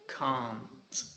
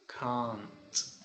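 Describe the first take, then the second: Both takes have the same delivery.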